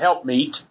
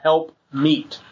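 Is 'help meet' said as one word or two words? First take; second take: one word; two words. First: It is said run together as one word. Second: It is said as two separate words. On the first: The term is treated as a single label. "they do say it as one word" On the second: The words mean a helper who is suitable. "I say it that way"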